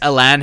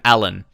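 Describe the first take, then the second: First: The name is said with a Brazilian pronunciation. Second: The name is said with an English pronunciation. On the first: The speaker calls it right. "how you pronounce it in Brazil" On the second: The speaker calls it wrong. "until he starts performing, I'm gonna call him Alan"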